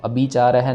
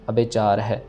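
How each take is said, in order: First: The first word ends with an 'ee' sound. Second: The first word ends with an 'ay' sound. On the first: The speaker calls it wrong. "इसको अभी नहीं कहना" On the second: The speaker calls it right. "अबे कहना है"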